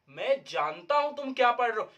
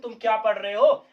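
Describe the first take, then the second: First: "तुम क्या पढ़ रहे हो" stated with a falling end; a statement, no question lift on "हो"; telling, not asking. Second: Asking "तुम क्या पढ़ रहे हो" with the end lifting; loud questioning rise at the end of "तुम क्या पढ़ रहे हो". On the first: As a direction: state it as known, dropping on "हो". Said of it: "क्वेश्चन नहीं पूछ रहा हूं". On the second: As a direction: put it as a question, louder and rising on "हो". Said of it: "हम किसी से question कर रहे हैं". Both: Shown as a demonstration.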